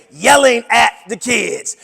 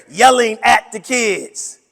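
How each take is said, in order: Both takes have the same delivery.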